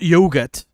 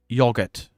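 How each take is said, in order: First: It is said with an American pronunciation. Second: It is said with a British pronunciation. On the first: The speaker calls it wrong. "Not yogurt" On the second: The speaker calls it right. "Yogurt, by the way"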